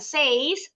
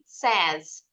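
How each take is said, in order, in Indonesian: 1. Vokalnya berbunyi seperti 'ay' pada 'say'. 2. Vokalnya adalah 'e' pendek, seperti 'sez'. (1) "bacanya bukan says" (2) "tapi says. S E Z bunyinya"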